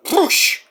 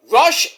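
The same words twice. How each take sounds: First: "Rush" as a high "Roosh" with trilled R; rolled-R Roosh. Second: Said in the usual way. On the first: Shown as a demonstration. Host contrasting two names, "Rush" said as trilled "Roosh". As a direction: roll the R of "Rush" and say "oo". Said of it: "some translations it's Rush". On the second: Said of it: "it's Rush in Mega Man".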